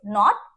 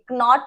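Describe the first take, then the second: First: The word starts directly with the n sound. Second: A k sound is said before the n. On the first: The speaker calls it right. "क्या बोलेंगे" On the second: The speaker calls it wrong. "कनॉट नहीं बोलेंगे"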